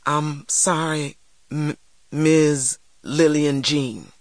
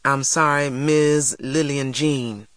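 First: Slow, halting, stammered apology; painfully slow, hesitant child; trembling, tearful apology. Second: Slow, deliberate prompt; stern, drawn-out demand. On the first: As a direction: force out a humiliating apology through tears. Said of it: "my lips trembled". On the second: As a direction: dictate the apology word for word. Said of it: "demanded Mister Sims". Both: A narrator's reading.

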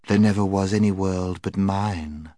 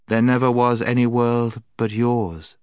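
First: Calm, level hypnotic statement; commanding witch. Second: Higher, louder chanted echo; enchanted children. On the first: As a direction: dictate it evenly, as a spell. Witch dictates to enchanted children. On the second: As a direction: recite it back obediently, raised pitch. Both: A narrator's reading.

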